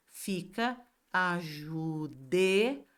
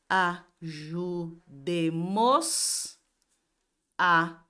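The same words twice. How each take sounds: First: Ajudemo-la spoken slowly, the s dropped and la joined on; correct form. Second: Ajudemos a spoken slowly, a stressed and loud at the end; wrong form. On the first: Teacher giving the class the corrected form, slow. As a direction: model ajudemo-la slowly with stress on de. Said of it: "acrescenta o L". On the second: Teacher showing the wrong construction, slow. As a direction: show the incorrect Ajudemos a, the a pushed out. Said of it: "Não posso ter essa construção". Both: Shown as a demonstration.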